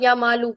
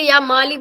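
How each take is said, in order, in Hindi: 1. नाम एक छोटी उ की मात्रा (पेश) से खत्म होता है। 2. नाम एक छोटी इ की मात्रा (ज़ेर) से खत्म होता है। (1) "पेश भी पढ़ सकते हैं" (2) "ज़ेर भी दे सकते हैं"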